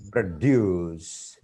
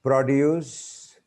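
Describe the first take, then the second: First: PRODUCE stressed on the second syllable; "produce" with a weak first syllable, long DUCE; verb pronunciation. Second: PRODUCE stressed on the first syllable; "produce" with a high, strong first syllable; noun pronunciation. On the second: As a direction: say "produce" as the noun, PRO-duce. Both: Shown as a demonstration. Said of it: "when we just change the word class".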